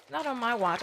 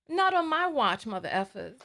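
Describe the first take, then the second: First: Said in the usual way. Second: Defiant declaration. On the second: Real, not acted. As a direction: fling "Not" out like a challenge. Defiant vow to commenters.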